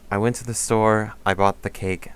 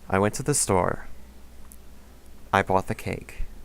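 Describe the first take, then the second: First: The phrases run together without a pause. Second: There is a clear pause between the phrases. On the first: The speaker calls it wrong. "instead of saying" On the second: The speaker calls it right. "just hesitate, pause in between each part"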